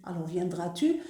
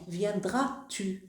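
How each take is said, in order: First: Said in the usual way. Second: "Viendras-tu" drawn out slowly, each syllable clear; slow demo of inversion. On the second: Shown as a demonstration. Teacher slowly showing the class the inverted subject in "Viendras-tu". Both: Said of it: "il y a l'inversion de sujet".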